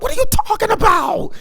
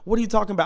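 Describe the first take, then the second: First: It is said imitating Woody's voice. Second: It is said in his normal voice.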